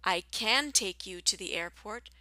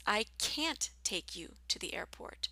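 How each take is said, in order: First: "can" as a short kin, weak and quick. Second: "can't" with the long vowel of cat. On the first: Teacher contrasting "can" with "can't" for learners, short kin. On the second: Teacher contrasting "can't" with "can" for learners, long cat vowel. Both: Shown as a demonstration. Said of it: "in situations like this".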